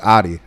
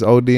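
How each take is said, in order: First: The name begins with an 'ah' vowel. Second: The name begins with an 'oh' vowel. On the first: This is how the name is said in America. "but it's Adi. That's that's how we say it in America" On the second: This is how the name is said in Africa. "is O D in Africa"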